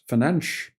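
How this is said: The name is said with Portuguese pronunciation. The speaker calls it right. "how different Portuguese is from Spanish"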